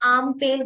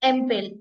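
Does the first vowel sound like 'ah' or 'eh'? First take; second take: ah; eh. First: The first vowel sounds like 'ah'. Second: The first vowel sounds like 'eh'. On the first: The speaker calls it right. "German में प्रोनाउंस कीजिए इसको, तो आप आम पेल बोलोगे" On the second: The speaker calls it wrong. "English के बेस पे तो आप इसको बोलोगे एम्पेल"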